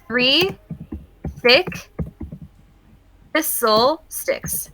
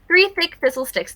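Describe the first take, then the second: First: The phrase is said at a normal pace. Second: The phrase is said very quickly.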